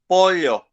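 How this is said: It is said in an older Paraguayan accent. "the one who is Paraguayan and he, who is sixty years old, he pronounces this word pollo"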